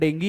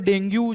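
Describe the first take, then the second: First: The word ends in an 'ee' sound. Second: The word ends in an 'oo' sound. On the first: This is the proper pronunciation of the term. "इसका pronunciation डेंगी है" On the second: This is the everyday way people say it. "डेंगू जो आप बोलते हो normally"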